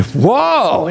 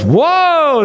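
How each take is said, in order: First: Said in the usual way. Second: Amazed whoa. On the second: Retold or imitated. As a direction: let the whoa leap up in wonder. Second whoa, much higher.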